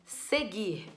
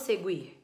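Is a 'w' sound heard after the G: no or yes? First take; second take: no; yes. First: The G is followed directly by the I vowel. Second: The G is followed by a W sound. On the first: The speaker calls it right. "eu não escuto" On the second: The speaker calls it wrong. "eu não falo seguir"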